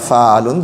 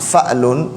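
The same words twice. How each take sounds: First: The first vowel is long, with no stop. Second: A glottal stop follows the first vowel. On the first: "হামজাটাকে তাখফিফ করে তার আলিফে পরিণত করেও পড়তে পারেন" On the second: "হামজাটা উচ্চারণ করতেও পারেন"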